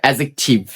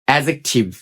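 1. d ধ্বনিটি j-এর আগে নীরব থাকে। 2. d ধ্বনিটি j-এর আগে নীরব থাকে।

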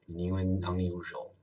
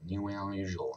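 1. 这个短语用正常的语速说。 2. 这个短语说得很快，而且连在一起。

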